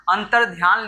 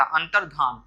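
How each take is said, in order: First: अंतर्ध्यान read with a clear ध्या, ध्यान as in meditation; written wrong form. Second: अंतर्धान read with plain धा, no ya glide; correct form. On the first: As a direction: say अंतर्ध्यान with the ya glide after ध. (अंतर्ध्यान को ध्या के साथ बोलना) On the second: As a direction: say अंतर्धान cleanly as धान. (अंतर्धान को बिना य के धान बोलना) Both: Shown as a demonstration. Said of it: "लिखा है तो अंतर्धान होता".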